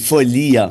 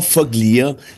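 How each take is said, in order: First: No g sound is heard in the name. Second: A hard g sound is heard in the name. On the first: The speaker calls it right. "On prononce pas le G" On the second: The speaker calls it wrong. "C'était pas Foglia"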